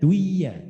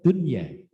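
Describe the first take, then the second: First: The n before the y is merged away. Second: The n before the y is clearly sounded. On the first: The speaker calls it wrong. "tidak dibaca duya" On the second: The speaker calls it right. "tapi tetap dunya"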